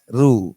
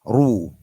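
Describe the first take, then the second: First: The r sound is light and thin. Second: The r sound is heavy and thick. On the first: The speaker calls it wrong. "bukan ru" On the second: The speaker calls it right. "Ro yang berdumah itu juga dibaca tebal"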